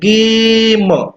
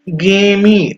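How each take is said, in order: First: The word ends on the m sound. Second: The word ends with an added ee sound. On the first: The speaker calls it right. "म पे खत्म हो रहा है, ई silent हो जा रहा है" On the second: The speaker calls it wrong. "मी खींच लेते"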